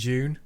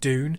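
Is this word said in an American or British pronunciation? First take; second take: British; American. First: It begins with a j-like sound. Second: It begins with a plain d sound. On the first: The speaker calls it wrong. "it's really confusing in British English" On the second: The speaker calls it right. "I really prefer the American way of saying D"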